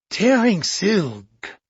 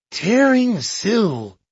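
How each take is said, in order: First: Slow, musing. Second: Slow and lifted, a touch of discovery; excited. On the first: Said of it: "Poirot explained". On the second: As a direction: savour each word, mildly thrilled. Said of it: "explained Poirot". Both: A narrator's reading.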